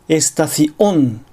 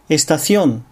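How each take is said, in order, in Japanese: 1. 声門閉鎖が単語の真ん中で言葉を区切ります。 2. 単語は声門閉鎖なしに滑らかに流れます。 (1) "単語の途中に正門閉鎖を入れてしまう" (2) "正しく"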